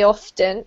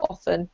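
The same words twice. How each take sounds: First: "often" with the T pronounced, off-ten; sounded T. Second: "often" with the T skipped, like offen; silent T. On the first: Teacher on emphasising the word, T sounded in "often". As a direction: say "often" carefully, T heard. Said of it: "if you're focusing on that word". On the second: Teacher on general sentences, T silent in "often". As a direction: say "often" casually, dropping the T. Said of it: "skipping over it just in your general sentence". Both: Shown as a demonstration.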